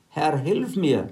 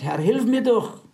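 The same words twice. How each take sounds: First: Slow, measured plea from the text; slow scripture plea; slow read plea. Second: Higher, pleading woman's voice; lightly voiced begging mother. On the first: Acted. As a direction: read the cry for help slowly and evenly. Woman's plea, read slowly. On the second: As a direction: beg like the desperate mother. Retold woman begging Jesus.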